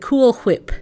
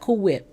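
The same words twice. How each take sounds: First: Every sound of both words is fully pronounced. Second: The words are pronounced only halfway, reduced. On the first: The speaker calls it right. "I say it just like Stewie Griffin did" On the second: The speaker calls it wrong. "You can't say it halfway"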